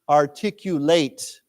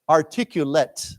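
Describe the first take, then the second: First: It is said with the verb pronunciation. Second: It is said with the adjective pronunciation. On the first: To express ideas clearly. "then it becomes a 动词. And then we pronounce this as to articulate" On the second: The person speaks well. "someone is as a 形容词, articulate"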